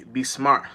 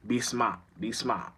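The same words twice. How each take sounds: First: Said in the usual way. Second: A light Boston accent on "smart". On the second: Shown as a demonstration. Trying out the local accent for listeners, Boston accent. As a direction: say "smart" lightly Boston-style, trailing softer. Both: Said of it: "That's how it's a Boston accent".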